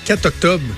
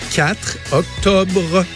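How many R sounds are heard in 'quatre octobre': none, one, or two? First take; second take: none; one. First: The R of quatre is dropped. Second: The R of quatre is fully pronounced. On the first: The speaker calls it wrong. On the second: The speaker calls it right.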